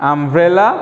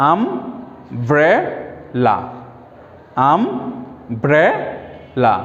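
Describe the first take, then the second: First: Said in the usual way. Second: আমব্রেলা very slowly as um, bre, la; broken into syllables. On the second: Shown as a demonstration. Teacher breaking a three-syllable word apart, very slow syllables. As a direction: stretch each syllable of আমব্রেলা, long gaps between. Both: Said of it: "আমরা একটু ভেঙে ভেঙে উচ্চারণ করি".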